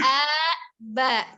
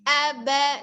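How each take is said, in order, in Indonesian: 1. Suku kata pertama diayun dan ditarik panjang. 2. Kedua suku kata dibaca pendek dengan ketukan yang sama rata. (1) "jangan diayun, tidak a ba" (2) "tapi a ba"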